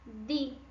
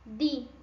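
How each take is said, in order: First: The d is made with the tongue between the teeth. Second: The d is made with the tongue between the teeth.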